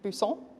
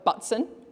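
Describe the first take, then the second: First: The name is said in a French way. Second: The name is said the plain English way. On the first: "I'd pronounce pretend I was French" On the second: "I have a last name of Butson"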